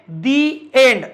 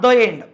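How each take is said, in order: First: The word 'the' has a long 'ee' vowel. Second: The word 'the' has a short 'uh' vowel. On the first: The speaker calls it right. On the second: The speaker calls it wrong. "Not द end. द end चुकीचं आहे"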